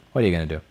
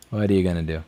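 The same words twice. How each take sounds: The two takes are said the same way.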